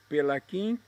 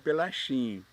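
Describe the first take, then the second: First: The middle consonant is a 'k' sound. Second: The middle consonant is an 'sh' sound. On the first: This is how the family name is actually said. The speaker calls it right. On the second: This is how Brazilians would read the Italian spelling. The speaker calls it wrong.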